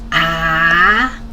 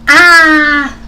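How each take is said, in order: First: The pitch rises from mid to high. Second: The pitch falls sharply from high to low. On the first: "It's a rising tone" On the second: "this is a straight falling tone"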